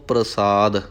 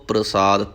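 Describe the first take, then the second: The two takes are said the same way.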